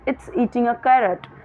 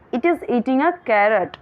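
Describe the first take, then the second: First: It is contracted into one short word. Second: It is said as two full words.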